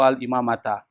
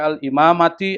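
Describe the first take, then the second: First: The word ends in an a vowel. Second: The word ends in an i vowel. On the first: "nggak boleh dibaca" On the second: "nggak boleh dibaca"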